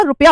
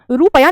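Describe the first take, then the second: First: रुपया with short 'u', "rup-ya"; correct pronunciation. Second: रुपया with long 'oo', "roo-pa-ya"; wrong pronunciation. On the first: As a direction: keep रुपया quick, "RUP-ya". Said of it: "रुपया होता है". (रुपया में छोटा 'रु') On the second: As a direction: stretch the first vowel of रुपया. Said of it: "रुपया नहीं होता". (रुपया को 'रूपया' बोलना) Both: Shown as a demonstration.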